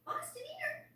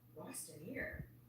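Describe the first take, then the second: First: It is said in a high voice. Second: It is said in a normal voice.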